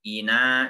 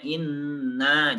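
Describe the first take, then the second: First: "ina" with a short single nun, the wrong way. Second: "Inna" with the nun doubled and pressed. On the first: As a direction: say "ina" with one light nun, as the mistake. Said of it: "jangan ina". (nun tunggal, bacaan salah) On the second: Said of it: "nunnya ada tasdidnya". (nun bertasydid ditekan) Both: Shown as a demonstration.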